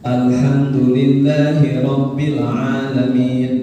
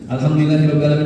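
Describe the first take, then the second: First: It is recited slowly and deliberately. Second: It is recited quickly and rushed. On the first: The speaker calls it right. "itu tartil" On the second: The speaker calls it wrong. "itu enggak tartil, enggak tertib itu"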